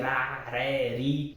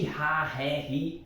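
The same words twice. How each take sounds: First: The r is a light tongue tap. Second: The r is a breathy h-sound. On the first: This is how the English R sounds. The speaker calls it right. "No inglês o R sempre vai ter esse som de" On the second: This is how the English H sounds. The speaker calls it wrong. "nunca o som de ra, ré, ri. Esse som ra, ré, ri é feito pelo H no inglês"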